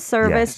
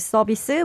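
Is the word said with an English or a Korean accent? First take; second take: English; Korean. First: The word is said with an English accent. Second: The word is said with a Korean accent. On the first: "for English-speaking people" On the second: "make it sound like Korean pronunciation"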